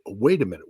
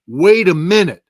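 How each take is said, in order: First: Said in the usual way. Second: Loud, higher-pitched halting exclamation; loud disbelief. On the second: Retold or imitated. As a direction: stop everything, louder and higher. Acts out his dawning disbelief.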